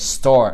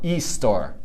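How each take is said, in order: First: The word begins directly with the s sound. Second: An extra vowel is added before the s sound. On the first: The speaker calls it right. "store, not e-store" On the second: The speaker calls it wrong. "not e-store"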